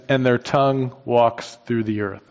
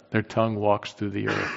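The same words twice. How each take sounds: First: Said in the usual way. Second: Softer, leaning on "tongue"; a softer relishing repeat with "tongue" stressed; savoring repeat. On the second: Shown as a demonstration. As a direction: say it again quietly, savoring "tongue". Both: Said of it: "I love that".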